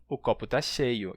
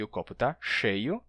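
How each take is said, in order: First: "cheio" dito com s sibilante. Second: "cheio" com ch chiado. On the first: ("cheio" como "seio") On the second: ("cheio" chiado) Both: Shown as a demonstration. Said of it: "interpretados como a mesma coisa".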